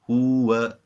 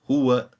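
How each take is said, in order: First: The vowels are drawn out long. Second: The vowels are kept short and sharp. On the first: The speaker calls it wrong. "that would be incorrect" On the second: The speaker calls it right. "So once again"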